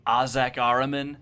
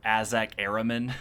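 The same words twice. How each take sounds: First: "Azak Araman" with open "ah" starting each name; broad A pronunciation. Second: "Azak Araman" with short "a" as in cat, then "air"; common flatter pronunciation. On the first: Listing favorite Warhammer names for the hosts, broad "ah" in "Azak Araman". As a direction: say "Azak Araman" as AH-zak AR-a-man. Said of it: "a lot of the people pronounce it". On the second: Giving how other people pronounce it, "Azak Araman" as AZ-ak AIR-a-man. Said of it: "as a lot of the people pronounce it". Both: Shown as a demonstration.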